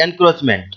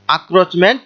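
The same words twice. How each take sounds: First: এনক্রোচমেন্ট starting with "en"; en- pronunciation. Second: আক্রোচমেন্ট starting "ak", without an n; a- pronunciation. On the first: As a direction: sound the n before "kroch" in এনক্রোচমেন্ট. (এনক্রোচমেন্ট, "এন" দিয়ে শুরু) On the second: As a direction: open "a" straight into "kroch" in আক্রোচমেন্ট. (আক্রোচমেন্ট, "আ" দিয়ে শুরু, ন নেই) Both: Shown as a demonstration. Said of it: "এটাকে উচ্চারণ করতে পারি".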